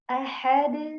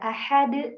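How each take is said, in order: First: The final d bounces lightly and fades out. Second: The final d stops abruptly like a glottal catch. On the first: The speaker calls it right. "dibaca aja ahad" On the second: The speaker calls it wrong. "tidak ahad ... kalau dihentakan tadi uh, seakan-akan ada hamzah setelah"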